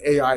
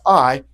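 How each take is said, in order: First: The name is said as two separate syllables. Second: The name is said as one single syllable. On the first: "you can pronounce it A I if you want, it's okay" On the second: "but it is pronounced I"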